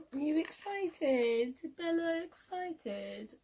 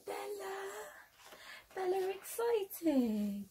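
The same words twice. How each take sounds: First: High, slow, cooing pet voice; talking to a dog. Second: Much higher, slow sing-song to a pet; excited dog talk. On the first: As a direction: coo at the puppy softly. Talking to her dog Bella. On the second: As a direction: hype up the dog, drawn out. Calling and hyping the dog. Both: Real, not acted.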